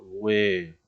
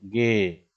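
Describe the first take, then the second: First: The u is sounded after the g. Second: The u is silent after the g. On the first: "para que se diga güe" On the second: "se pronunciaría como ge"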